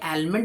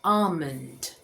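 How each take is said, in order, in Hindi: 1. एल की आवाज़ बोली जाती है। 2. एल की आवाज़ साइलेंट है। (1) "आलमंड नहीं बोलेंगे" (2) "यहाँ पे एल साइलेंट है"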